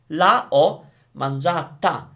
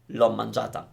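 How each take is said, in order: First: Both words are said fully, two vowels side by side. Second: The first vowel is dropped, joining the two words. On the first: The speaker calls it wrong. "we don't say la ho mangiata because that sounds awful" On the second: The speaker calls it right. "We say l'ho mangiata"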